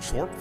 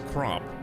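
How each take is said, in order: First: The name sounds like chorp. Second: The name sounds like crop. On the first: The speaker calls it wrong. "I don't know why I've been pronouncing this wrong" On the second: The speaker calls it right. "I think it's actually pronounced Crop"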